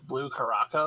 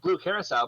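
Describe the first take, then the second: First: The last word ends with a 'co' sound. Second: The last word ends with a 'sel' sound. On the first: The speaker calls it wrong. "everyone calls it like" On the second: The speaker calls it right. "no, it's like"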